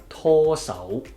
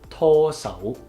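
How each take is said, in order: No difference in how they are said.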